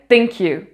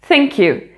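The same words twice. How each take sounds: First: The word begins with a hard t sound. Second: The word begins with a soft th sound. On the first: The speaker calls it wrong. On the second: The speaker calls it right.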